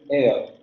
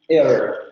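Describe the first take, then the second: First: It is said in a British accent. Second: It is said in a standard American accent.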